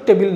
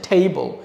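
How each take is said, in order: First: The first vowel is a short eh sound. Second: The first vowel is a long ay sound. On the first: The speaker calls it wrong. "টেবিল কিন্তু টেবিল না" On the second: The speaker calls it right. "এটা হচ্ছে ঠেইবল"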